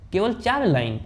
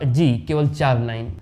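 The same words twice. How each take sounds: First: Higher-pitched, mildly incredulous question; surprised question. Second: Said in the usual way. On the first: A narrator's reading. Singer checking with the composer it is only four, surprised.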